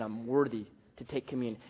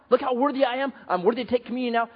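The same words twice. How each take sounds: First: Quiet, lower smug boast; proud. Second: Higher, boastful show-off voice; mock pride. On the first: Retold or imitated. Preacher voicing a proud churchgoer, quietly smug. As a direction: mutter it like a self-satisfied churchgoer. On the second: Preacher mocking a proud churchgoer, higher and boastful. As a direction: puff it up, faster at the end. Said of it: "Not pride".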